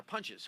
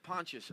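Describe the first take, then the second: First: "Pontius" said like "Punches"; corrected pronunciation. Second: Said in the usual way. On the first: Real, not acted. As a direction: say "Pontius" with an "uh" in the first syllable, as in punch. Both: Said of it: "I'm sorry, Pontius".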